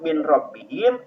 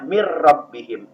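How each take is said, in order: First: The n sound is pronounced before the r. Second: The n merges into a doubled r sound. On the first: "tulisannya min rabbihim" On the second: "harus dibacanya mir rabbihim"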